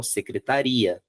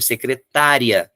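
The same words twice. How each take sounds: First: Secretaria with the weight shifted onto -ri-; teacher's demo of secretaria with the stress moved to -ri-. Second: Secretária slowed, weight on the tá syllable; teacher's slow demo of secretária, stressed on -tá-. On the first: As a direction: say secretaria, leaning on -ri-. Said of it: "a tônica vai pro final". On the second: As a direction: stretch secretária, leaning on -tá-. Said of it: "O acento eu preciso ter". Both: Shown as a demonstration.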